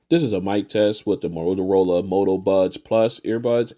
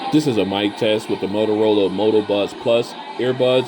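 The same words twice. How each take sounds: First: The voice is heard against a quiet background. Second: The voice is heard against a noisy background. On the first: "in a quiet location" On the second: "in a crowded location"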